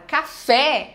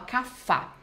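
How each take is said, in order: First: The final vowel is an open 'eh' sound. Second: The final vowel is an 'ah' sound. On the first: The intended target word. The speaker calls it right. "a palavra café" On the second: A child swaps the vowel for another. The speaker calls it wrong. "ela vai e fala cafá"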